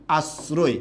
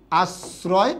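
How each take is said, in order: First: Careful "আশ্রয়" as "as-ro-e", s not sh; rounded tight o in "আশ্রয়"; closed o. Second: Careful "আশ্রয়" as "as-raw-e", s not sh; wide open o in "আশ্রয়". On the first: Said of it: "এটা হবে এটার সঠিক উচ্চারণ". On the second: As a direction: say "আশ্রয়" with s and o as in "law". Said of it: "এই উচ্চারণটাও কিন্তু এটা correct". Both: Shown as a demonstration.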